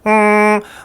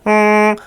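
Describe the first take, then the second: First: The hum sounds bright, nasal and whiny. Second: The hum sounds bright, nasal and whiny.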